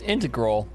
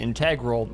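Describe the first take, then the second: First: It uses the usual math-term pronunciation. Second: It copies the character's odd pronunciation. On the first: The speaker calls it right. "It's integral, like the math concept" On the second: The speaker calls it wrong. "he pronounced it integral"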